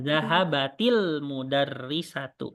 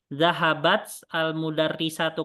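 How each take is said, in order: First: The first word ends with an added i vowel. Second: The first word ends in a bare t sound.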